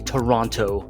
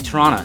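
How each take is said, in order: First: The second t is clearly pronounced. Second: The second t is dropped. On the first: An outsider says it this way. The speaker calls it wrong. "we get a little bit pissy when people say Toronto. It's not how you say it" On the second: Locals say it this way. The speaker calls it right. "You say Toronto. You don't pronounce the t"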